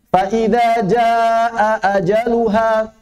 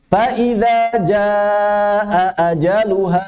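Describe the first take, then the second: No difference in how they are said.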